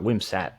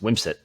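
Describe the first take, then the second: First: The last syllable sounds like 'sat'. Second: The last syllable sounds like 'sit'. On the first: The speaker calls it wrong. "it's not Wimsat" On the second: The speaker calls it right. "It's Wimsit"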